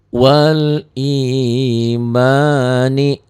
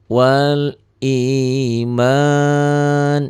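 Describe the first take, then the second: First: The phrase ends with a final vowel sound. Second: The phrase ends on a bare consonant. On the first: The reading continues into the next word. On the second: The reading stops at this word.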